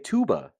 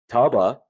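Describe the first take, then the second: First: The first vowel is long, as in too. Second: The first vowel is short, as in cub. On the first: The speaker calls it right. "You'd say tuba" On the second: The speaker calls it wrong. "you wouldn't say uh tuba"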